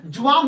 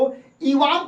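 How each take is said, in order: First: The word begins with a j sound. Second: The word begins with a y sound.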